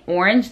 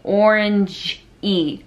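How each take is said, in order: First: The word ends cleanly without an added vowel. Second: The word ends with an added extra vowel. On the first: The speaker calls it right. "Instead of saying orange" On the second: The speaker calls it wrong. "they say orange-y"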